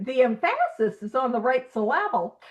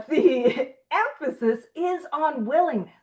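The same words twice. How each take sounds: First: "emphasis" said em-FASS-is, "syllable" said sil-LAB-le; joking misplaced stress. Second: Said in the usual way. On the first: Shown as a demonstration. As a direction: shift the stress onto the second syllable of "emphasis" and "syllable".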